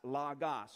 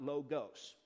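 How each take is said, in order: First: The o vowels sound like short 'ah'. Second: The o vowels sound like long 'oh'. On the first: The speaker calls it right. "These are omicrons, so we pronounce it as logos" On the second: The speaker calls it wrong. "not logos"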